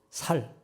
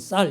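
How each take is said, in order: First: The first consonant is a plain soft s sound. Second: The first consonant is a tense s sound. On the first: This is how Daegu people say it. The speaker calls it wrong. "살이문 뭐 이런 식으로 한다는 거 아니에요?" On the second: This is the standard pronunciation. The speaker calls it right. "쌀 이런 얘기를 못 한대"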